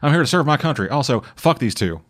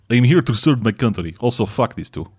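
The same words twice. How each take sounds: First: It is said in a Southern accent. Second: It is said in a Slavic accent.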